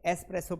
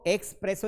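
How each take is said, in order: First: It is said with no k sound before s. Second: It is said with a k sound before s. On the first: The speaker calls it right. "एस्प्रेसो पढ़ते हैं" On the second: The speaker calls it wrong. "इसको एक्सप्रेसो नहीं पढ़ते हैं"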